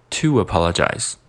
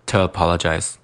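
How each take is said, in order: First: TO APOLOGIZE with a full "too" gliding on; full form linking. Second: TO APOLOGIZE with TO reduced to "tuh"; awkward weak form. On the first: Teacher showing the preferred reading, TO APOLOGIZE with full "too". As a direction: keep TO as "too", w glide into APOLOGIZE. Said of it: "所以说读成to". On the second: Teacher showing what sounds bad, TO as "tuh" in TO APOLOGIZE. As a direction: say TO as schwa before APOLOGIZE. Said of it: "就不好听". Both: Shown as a demonstration.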